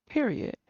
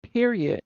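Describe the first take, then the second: First: Much softer, dropped period; softer repeat. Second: Said in the usual way. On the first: Real, not acted. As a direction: let it fall away quietly. Closing her point.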